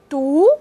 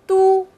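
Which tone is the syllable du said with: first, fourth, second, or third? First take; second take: second; first. First: It is said with a rising pitch. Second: It is said with a high level pitch.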